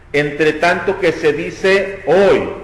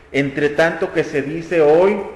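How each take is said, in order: Both takes have the same delivery.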